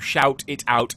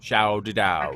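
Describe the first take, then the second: First: Every T is pronounced crisply and separately. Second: The T sounds are softened and run together. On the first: The speaker calls it wrong. "is just lots of T's" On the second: The speaker calls it right. "It actually goes out a lot more kind of shouted out"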